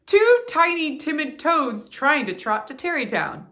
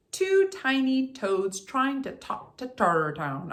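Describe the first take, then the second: First: "Two tiny timid toads" punched high and loud, every T crisp; corrected twister. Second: Said in the usual way. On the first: Shown as a demonstration. Coach getting the twister right on the second try. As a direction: hit each T hard. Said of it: "There we go". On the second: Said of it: "I completely blew that".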